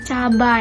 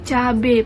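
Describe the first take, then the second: First: The word ends in an 'ai' glide. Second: The word ends in a plain 'e' vowel. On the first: The speaker calls it right. "yang benar tuh cabai" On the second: The speaker calls it wrong. "Ini lagi cabe"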